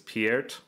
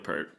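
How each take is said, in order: First: The vowel sounds like the word 'peer'. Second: The vowel sounds like the word 'per'. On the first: This is reportedly the name's proper pronunciation. "supposedly the way you say that last name is [name]" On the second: This is how nearly everyone says the name. "no, it's Neil Peart"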